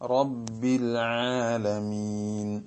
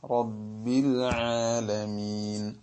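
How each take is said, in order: The two takes are said the same way.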